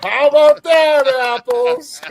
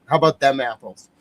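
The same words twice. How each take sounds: First: Much higher and louder, slow mock triumph; over-the-top excited echo; hammed-up shout. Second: Smug triumphant flourish; cocky victory line; triumphant tag. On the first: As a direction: belt it back like a cheering fan. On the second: Real, not acted. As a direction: land it like a mic drop. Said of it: "trick finished".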